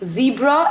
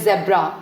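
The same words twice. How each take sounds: First: The word begins with a z sound. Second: The word begins with a j sound. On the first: The speaker calls it right. "Zebra is the correct pronunciation" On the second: The speaker calls it wrong. "मैंने काफी लोगों को सुना है वो बोलते हैं zebra. That's incorrect"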